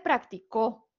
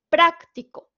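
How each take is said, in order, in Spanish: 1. El acento está en la última sílaba. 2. El acento está en la primera sílaba. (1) "el acento prosódico en la O" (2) "tiene la sílaba tónica en pra"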